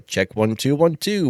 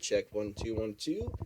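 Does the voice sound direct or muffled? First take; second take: direct; muffled. First: The voice is picked up from the front. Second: The voice is picked up from behind.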